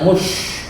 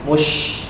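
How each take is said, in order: First: The sh sound keeps the rounded lip shape. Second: Only the m is rounded; the sh is not. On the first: The speaker calls it wrong. "jangan mush" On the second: The speaker calls it right. "mimnya saja yang mencucu"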